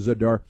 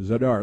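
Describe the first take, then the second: First: Zadar said zuh-DAR; correct local pronunciation. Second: Zadar said as it looks, ZAY-dar; misreading by spelling. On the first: Host correcting the spelling-based reading, Zadar pronounced zuh-DAR. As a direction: stress the second syllable of Zadar, rhyming with "car". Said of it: "it's pronounced Zadar". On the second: Host showing how the town's spelling misleads, Zadar misread as ZAY-dar. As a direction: say Zadar with a long "ay" up front. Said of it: "it looks like Zadar". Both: Shown as a demonstration.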